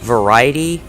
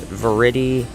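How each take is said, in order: First: The middle vowel is a long I sound. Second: The middle vowel is a short sound. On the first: "Is it a long I? Is it like variety?" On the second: "Or is it Verity?"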